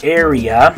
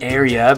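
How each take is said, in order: First: The vowels have English vowel sounds. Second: The same.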